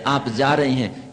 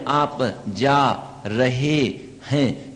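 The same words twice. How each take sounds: First: The words flow together without gaps. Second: The words are separated by long gaps.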